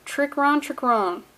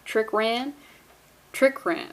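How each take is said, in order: First: "Trick Ron" with the second word rhyming with "on"; trying a pronunciation. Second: "Trick Ran" with the second word rhyming with "man"; trying a pronunciation. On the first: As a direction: test "Ron" with an open ah vowel. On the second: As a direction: test "Ran" with a short a, unsurely. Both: Shown as a demonstration. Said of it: "I don't know if I'm saying that correctly".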